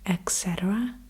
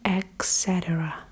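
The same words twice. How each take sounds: First: It begins with an 'eks' sound. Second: It begins with an 'eks' sound.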